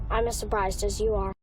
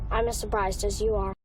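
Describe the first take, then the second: The two takes are said the same way.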